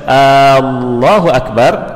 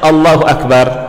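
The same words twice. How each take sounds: First: The opening vowel is drawn out long. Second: The opening vowel is kept short. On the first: Is Allah the Greatest? The speaker calls it wrong. "Kalau membacaannya panjang" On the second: Allah is the Greatest. The speaker calls it right. "awalnya asalnya"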